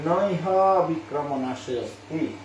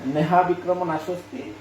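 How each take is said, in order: First: The first two words are split into na iha. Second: The first two words are merged into neha. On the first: "আমি যদি ভেঙে উচ্চারণ করি" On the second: "যদি আমি মূল শ্লোক থেকে উচ্চারণ করি"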